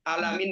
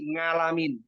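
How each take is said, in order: First: The word begins with a throaty vowel. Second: The word begins with an ng sound. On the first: The speaker calls it right. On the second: The speaker calls it wrong.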